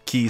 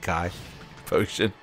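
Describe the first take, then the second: First: The word sounds like 'key'. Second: The word sounds like 'kai'. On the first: "Is it a key?" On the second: "some say Kai potion"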